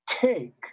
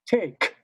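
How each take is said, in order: First: The T is louder than the K. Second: The K is louder than the T. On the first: The speaker calls it right. "Nope, it's take" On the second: The speaker calls it wrong. "if we do that backwards, it doesn't sound right"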